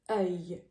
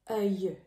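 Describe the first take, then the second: Both takes have the same delivery.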